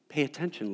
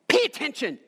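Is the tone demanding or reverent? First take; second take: reverent; demanding. First: It is said in a respectful, reverent tone. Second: It is said in a sharp, demanding tone. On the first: The speaker is asking with honor and respect. The speaker calls it right. "We got to say it with honor and reverence" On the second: The speaker is commanding rather than showing respect. The speaker calls it wrong. "See, we don't say it like that"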